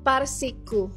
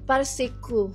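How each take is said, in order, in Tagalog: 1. Tatlong pantig ito, par-si-ku. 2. Tatlong pantig ito, par-si-ku.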